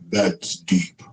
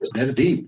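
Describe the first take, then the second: First: It is said in a put-on deep voice. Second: It is said in a normal voice.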